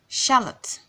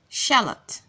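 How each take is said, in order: First: The name begins with an sh sound. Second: The same.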